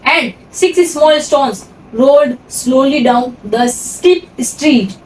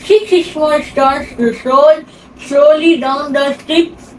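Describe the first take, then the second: First: It sounds clear, spoken without a pen. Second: It sounds muffled, spoken around a pen.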